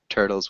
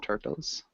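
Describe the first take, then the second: First: The middle consonant is a soft D sound. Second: The middle consonant is a hard T sound. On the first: The speaker calls it right. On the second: The speaker calls it wrong.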